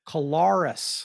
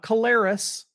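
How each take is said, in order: First: The first syllable has a short 'uh' vowel. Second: The first syllable does not have a short 'uh' vowel. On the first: The speaker calls it right. "Like a C-U sound, C-U-H, Lar, us" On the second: The speaker calls it wrong. "not Kolaris"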